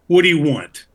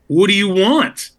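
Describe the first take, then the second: First: It sounds angry and demanding. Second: It sounds both angry and questioning.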